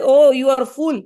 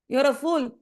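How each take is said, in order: First: Stern scolding. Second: Said in the usual way. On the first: Acted. Guru scolding the disciple.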